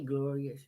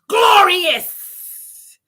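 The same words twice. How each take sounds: First: It is said flatly, without emotion. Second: It is said with enthusiastic emotion.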